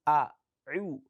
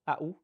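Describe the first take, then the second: First: A pharyngeal ain follows the opening glottal stop. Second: A glottal stop is used where ain belongs. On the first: The speaker calls it right. "It is A'u, a, u" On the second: The speaker calls it wrong. "that means you have Hamza and Hamza. ... that is wrong"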